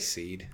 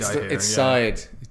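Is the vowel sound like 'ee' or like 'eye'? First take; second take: ee; eye. First: The vowel sounds like 'ee'. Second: The vowel sounds like 'eye'. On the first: "I say seed" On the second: "It's side"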